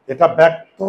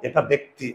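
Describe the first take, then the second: First: "ব্যক্ত" said louder, ending on a bare "ত" with no vowel after it; pronunciation contrast. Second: "ব্যক্তি" said lower and softer, with a clear "ই" sound at the end; pronunciation contrast. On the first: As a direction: say "ব্যক্ত" cleanly, stopping on the consonant. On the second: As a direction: finish "ব্যক্তি" on a distinct "ই". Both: Shown as a demonstration. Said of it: "দুইটা এক জিনিস না".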